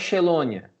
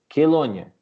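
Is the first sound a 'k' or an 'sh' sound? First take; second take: sh; k. First: It begins with an 'sh' sound. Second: It begins with a 'k' sound. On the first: The speaker calls it wrong. "isso aqui não é Chelônia" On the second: The speaker calls it right. "C H é som de Q U"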